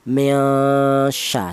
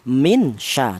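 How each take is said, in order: First: The n is blurred into a nasal hum. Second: The n is pronounced fully and clearly. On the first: The speaker calls it right. "dibaca samar atau cara bacanya disamarkan atau namanya ikhfa" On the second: The speaker calls it wrong. "dibaca jelas. Seperti contoh min sha tidak boleh"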